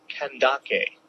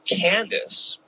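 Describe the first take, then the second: First: The name ends with a k and vowel. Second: The name ends with an s sound. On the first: The speaker calls it right. "but it's actually pronounced Kandake" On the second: The speaker calls it wrong. "I've always pronounced this name Candace"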